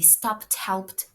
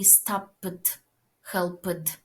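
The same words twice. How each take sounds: First: The ending is a plain t sound. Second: The ending is not a plain t sound. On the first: The speaker calls it right. "It will be" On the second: The speaker calls it wrong. "It won't be"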